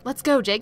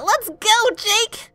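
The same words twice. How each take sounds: First: It is said in a plain, serious voice. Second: It is said in a ditzy airhead voice.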